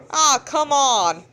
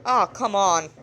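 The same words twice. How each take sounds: First: Louder, slower, drawn-out Oh, come on; exaggerated exasperation. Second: Said in the usual way. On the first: Real, not acted. Narrator redoing a line, louder and drawn out. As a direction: stretch it out, mock fed up.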